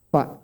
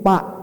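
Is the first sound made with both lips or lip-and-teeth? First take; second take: lip-and-teeth; both lips. First: The first sound is made with lip and teeth. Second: The first sound is made with both lips. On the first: The speaker calls it right. "fa cuma satu bibir" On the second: The speaker calls it wrong. "Pak, salah"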